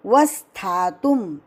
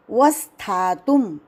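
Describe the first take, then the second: No difference in how they are said.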